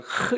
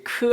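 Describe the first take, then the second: First: It is a breathy h sound. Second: It is a hard k sound. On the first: "흐 이렇게 발음하기도 합니다" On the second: "크 하기도 하고요"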